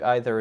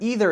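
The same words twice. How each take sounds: First: It is said the British way. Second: It is said the American way. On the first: "I think either is more British" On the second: "Either is definitely American"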